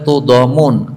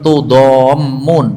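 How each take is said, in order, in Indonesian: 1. Bunyi m pendek dan tunggal. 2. Bunyi m dibaca panjang dan ganda.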